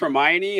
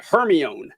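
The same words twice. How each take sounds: First: The name is said in its standard pronunciation. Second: The name is sounded out as it is spelled. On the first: This is how the name is actually pronounced. The speaker calls it right. "I didn't know it was pronounced Hermione" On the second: The speaker had only seen the name written. The speaker calls it wrong. "I said Hermione because I'd seen it written"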